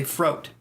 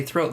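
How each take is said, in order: First: "throat" with an f sound, like "froat"; British "throat". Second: Said in the usual way. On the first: Shown as a demonstration. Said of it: "depending on the British accent". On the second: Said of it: "they don't even say throat".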